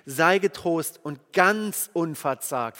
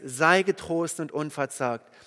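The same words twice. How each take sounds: First: Slow, weighty "ganz" leaned on; preacher stressing "ganz" as God's added word. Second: Said in the usual way. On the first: Shown as a demonstration. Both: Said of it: "Nein, nein, ganz unverzagt".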